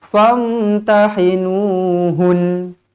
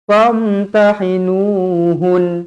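Both takes have the same delivery.

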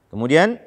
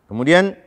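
Both takes have the same delivery.

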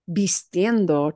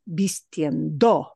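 First: The stress is on the middle syllable. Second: The stress is on the last syllable. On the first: The speaker calls it right. "that core word of vistiendo" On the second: The speaker calls it wrong. "No es natural"

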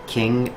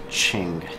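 First: Qing is read the way English spelling suggests. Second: Qing is said with its Chinese pronunciation. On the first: This is how many people say it. The speaker calls it wrong. "people sometimes say the Qing Empire" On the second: This is how the name is really said. The speaker calls it right. "but it's actually Qing"

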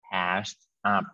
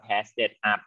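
First: No extra syllable comes before 'up'. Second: An extra 'id' syllable comes before 'up'. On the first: The speaker calls it right. "นะลูก, past up นะ" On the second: The speaker calls it wrong. "อย่าอ่านว่า"

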